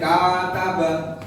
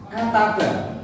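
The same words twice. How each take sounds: First: The vowels are drawn out long. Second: The vowels are kept short. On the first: The speaker calls it wrong. "tidak boleh" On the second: The speaker calls it right. "bacanya ya harus pendek-pendek"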